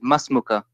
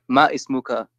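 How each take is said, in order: First: It is said as one shortened word. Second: It is said as two separate words. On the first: The speaker calls it right. "but you say masmuka" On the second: The speaker calls it wrong. "not ma ismuka"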